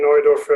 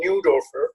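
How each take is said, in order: First: The name has a non-American pronunciation. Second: The name has an American pronunciation. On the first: "my name is [name]" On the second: "or as you Americans pronounce my name"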